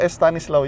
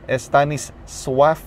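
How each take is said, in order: First: The last syllable sounds like slaw. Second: The last syllable sounds like swaf. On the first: The speaker calls it wrong. "Yung S-L-A-W na akala ko Slaw" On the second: The speaker calls it right. "S-W-A-F palang pag-pronounce. Swaf"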